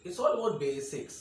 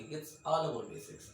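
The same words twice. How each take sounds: First: "It's all about basics" drawn out slow and loud, "all" leaned on; slow emphatic motto. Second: Said in the usual way. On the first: Shown as a demonstration. Teacher drilling his class: slow, weighty motto. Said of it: "teacher's motto". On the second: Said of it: "repeats motto".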